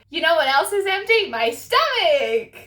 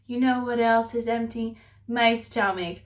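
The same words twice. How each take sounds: First: It is said in a cheerful, joking tone. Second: It is said in a flat, depressed tone. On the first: The speaker calls it right. "He would be like" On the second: The speaker calls it wrong. "He wouldn't be all depressed and be like"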